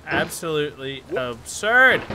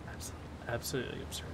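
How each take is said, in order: First: "Absolutely absurd" spaced out in full voice; deliberate, weighty "Absolutely absurd"; emphatic disbelief. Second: Low, hushed and fast; barely voiced grumble; muttered disbelief. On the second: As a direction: mutter it quickly under your breath. Muttering to himself at game. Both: Real, not acted.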